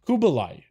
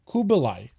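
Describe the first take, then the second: First: The name has a B sound in the middle. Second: The name has a B sound in the middle.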